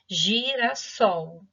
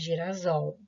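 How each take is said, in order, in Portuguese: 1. A consoante do meio tem som de s, sem vibração. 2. A consoante do meio tem som de z, com vibração. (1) "Eu só coloquei o outro S" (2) "o S entre vogais tem som de Z, senão ficaria girasol"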